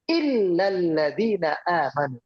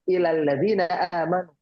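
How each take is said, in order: First: The l in the first word is doubled. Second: The l in the first word is short. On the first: It means except those who believe. The speaker calls it right. "Kalau pengecualian ada kalimat illal ladzina amanu" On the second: It means to those who believe. The speaker calls it wrong. "Dia bacanya ilal ladzina amanu"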